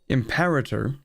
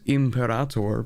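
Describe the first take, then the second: First: The word is pronounced in an anglicized way. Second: The word is pronounced in a non-English way. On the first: "it's already too anglicized in my brain" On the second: "people are supposed to pronounce it as Imperator"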